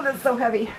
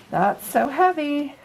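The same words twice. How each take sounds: First: Said in the usual way. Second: Higher and slow, hamming up the weight; groaning mock complaint about the weight; mock strain. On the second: Real, not acted. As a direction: drag it out like it's heavy to hold.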